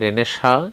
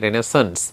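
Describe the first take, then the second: First: The word ends without a final s sound. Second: The word ends with a final s sound. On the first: This is the Bengali pronunciation. "বাংলায় বলা হয়" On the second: This is the English pronunciation. "ইংলিশে"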